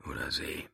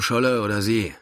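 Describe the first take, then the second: First: Softly murmured whisper; quiet murmur. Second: Said in the usual way. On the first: A narrator's reading. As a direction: murmur it under your breath. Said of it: "murmelte Philipp Stoja leise". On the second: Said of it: "same words said twice".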